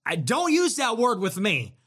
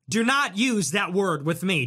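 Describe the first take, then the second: First: Said in the usual way. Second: "not" split off and hit harder; stress on not. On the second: Real, not acted. To the streamer who called him a larper, stress on not. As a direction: lean into "not", each word separate.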